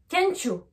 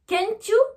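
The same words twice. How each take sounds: First: The t and y merge into a ch sound. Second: The t and y are said separately. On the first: The speaker calls it right. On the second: The speaker calls it wrong.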